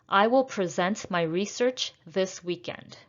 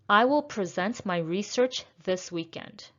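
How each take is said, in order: The two takes are said the same way.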